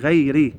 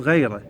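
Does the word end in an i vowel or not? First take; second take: i; not i. First: The word ends in an i vowel. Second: The word does not end in i. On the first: The speaker calls it right. "لا هي غيري بالكسرة" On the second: The speaker calls it wrong. "يقولون غيره"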